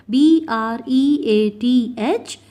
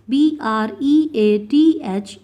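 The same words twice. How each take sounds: The two takes are said the same way.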